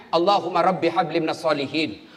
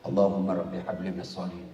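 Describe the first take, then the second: First: Said in the usual way. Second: Much lower, softer murmur into the ear; hushed prayer breathed into the ear; whispered prayer. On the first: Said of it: "bisik kepalanya". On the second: Retold or imitated. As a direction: whisper it close to the boy's ear. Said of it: "Saya bisik telanganya".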